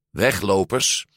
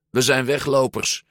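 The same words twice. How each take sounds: First: "Weglopers" with a rising tune; questioning echo. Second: "weglopers" stated with a final fall; confessing "weglopers", voice dropping at the end; declaration. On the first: Giulia repeats it as a question. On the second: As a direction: announce "weglopers" as a fact, pitched up. Alberto reveals they are runaways. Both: A narrator's reading.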